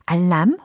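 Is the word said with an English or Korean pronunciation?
Korean. It is said with flat Korean syllables. The speaker calls it wrong. "알람이 아니라"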